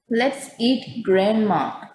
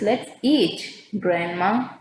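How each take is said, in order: First: It is said without a pause before grandma. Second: There is a pause before grandma.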